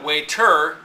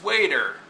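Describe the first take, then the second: First: Waiter with TER stressed hard; wrong-syllable stress. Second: Waiter with WAIT stressed, ER falling away; first-syllable stress. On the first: Teacher showing students the wrong stress, waiter with TER stressed. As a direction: misplace the weight onto the er of waiter. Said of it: "it's not waiter". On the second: Teacher correcting the stress, waiter with WAIT stressed. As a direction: hit wait, let er drop in waiter. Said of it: "it's waiter". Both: Shown as a demonstration.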